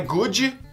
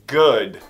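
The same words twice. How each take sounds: First: The final D is strong and heavy. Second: The final D is soft and light. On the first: The speaker calls it wrong. "Não é good" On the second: The speaker calls it right. "Esse D é bem suave"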